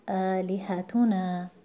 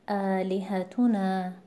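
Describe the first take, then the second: First: The stress falls on the syllable tu. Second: The stress falls on the syllable tu.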